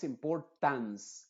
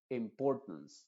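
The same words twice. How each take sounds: First: "importance" con una A muy abierta al final. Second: "importance" con la A final reducida a schwa. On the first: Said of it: "con una A muy abierta". ("importance" pronunciado mal, con A plena final) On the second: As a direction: di "importance" con la última vocal breve y cerrada. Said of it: "se está pronunciando como una schwa". ("importance" con schwa al final) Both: Shown as a demonstration.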